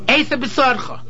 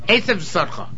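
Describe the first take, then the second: First: The second word begins with a clear b sound. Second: The second word begins with a v sound. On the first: The speaker calls it right. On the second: The speaker calls it wrong.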